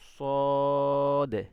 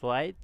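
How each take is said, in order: First: The vowel is plain and long without rounding. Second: The vowel starts with a rounded w-like glide. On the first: The speaker calls it right. "লম্বা উপর দিকে টান হবে, কোনো মুখ বাঁকা টাকা হবে না" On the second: The speaker calls it wrong. "তারা এভাবে পড়ে সোয়াইদ দোয়াইদ, এভাবে কিন্তু হবে না"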